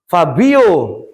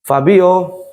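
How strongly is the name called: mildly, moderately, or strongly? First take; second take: strongly; moderately. First: The name is called with a clearly raised voice. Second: The name is called with slightly more force. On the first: The child finally responds and obeys. "intonasinya agak dinaikkan sedikit" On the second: The child still does not respond. "agak sedikit intonasi saya"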